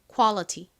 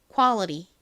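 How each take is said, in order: First: The middle t is a clear t. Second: The middle t is a soft flap. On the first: "그냥 t를 t 발음으로 딱 살려서" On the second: "요 T를 버터 바른 듯이 약간 느끼하게 이렇게 리을처럼 좀 꼬아서 발음"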